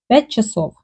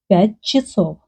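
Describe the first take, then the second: First: The vowel after 'ch' sounds like 'a'. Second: The vowel after 'ch' sounds like 'e'. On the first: The speaker sounds Ukrainian. "Ukrainian people will say" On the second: The speaker sounds Russian. "Russian people sometimes pronounce a like e"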